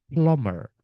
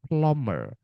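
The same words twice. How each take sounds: The two takes are said the same way.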